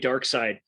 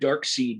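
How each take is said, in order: First: The second syllable sounds like side. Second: The second syllable sounds like seed. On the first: The speaker calls it right. "it's clearly Dark Side" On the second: The speaker calls it wrong. "I've called him Dark Seed my whole life"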